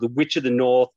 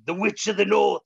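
First: The title is said plainly, without passion. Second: The title is said dramatically, with passion. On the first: The speaker calls it wrong. "I feel like it's not being said right" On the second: The speaker calls it right. "You've got to say it with more passionate"

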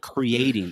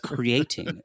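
First: The t is said like a d. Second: The t is said as a clear t. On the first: The speaker calls it wrong. "not creating" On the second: The speaker calls it right. "No, it's creating"

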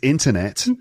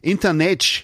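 First: It has a plain English accent. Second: It has a strong Brazilian Portuguese accent.

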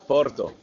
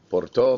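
First: It is said with a Spanish accent. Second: It is said with a French accent. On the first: "We're so Spanish over here" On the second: "We need to say it with a French accent"

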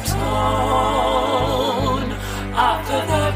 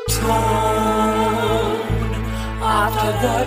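No difference in how they are said.

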